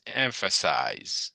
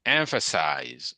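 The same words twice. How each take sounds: First: "Emphasize" said slowly and clearly for the class to repeat; teacher sounding out "Emphasize" slowly; model pronunciation. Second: Said in the usual way. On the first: Shown as a demonstration. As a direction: read "Emphasize" slow and distinct, a model for students. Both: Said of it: "Everybody read this".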